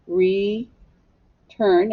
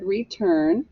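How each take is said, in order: First: "return" slowly split into re and turn; syllable by syllable. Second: Said in the usual way. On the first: Shown as a demonstration. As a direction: hold re, pause, then say turn. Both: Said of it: "Scoop it".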